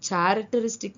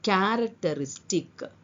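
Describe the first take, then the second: First: The word begins with a ch sound. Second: The word begins with a k sound. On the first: The speaker calls it wrong. "ಇದು ಚಾರಕ್ಟರಿಸ್ಟಿಕ್ ಅಲ್ಲ" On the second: The speaker calls it right. "ಸಾಧಾರಣ ಹೇಳುದು"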